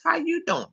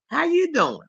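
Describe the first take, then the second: First: It is said in a put-on imitating voice. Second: It is said in the speaker's ordinary voice.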